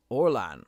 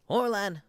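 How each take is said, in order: First: Said in the usual way. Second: Orlan said much higher, Irish lilt. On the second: Acted. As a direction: pitch up into the Irish voice. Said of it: "high-pitched Irish one".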